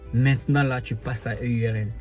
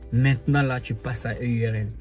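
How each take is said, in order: The two takes are said the same way.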